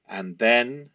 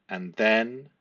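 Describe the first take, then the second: No difference in how they are said.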